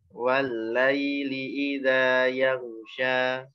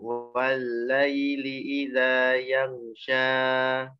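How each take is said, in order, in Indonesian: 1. Vokal terakhir berakhir bersih dengan panjang sedang. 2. Vokal terakhir ditahan terlalu lama. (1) "jadi yang tepat ya tidak dikeluarkan ketiganya"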